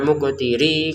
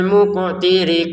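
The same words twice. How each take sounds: First: The final vowel is drawn out long. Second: The final vowel is kept short. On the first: The speaker calls it wrong. "jangan muqtiri gitu" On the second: The speaker calls it right. "langsung ke qaf"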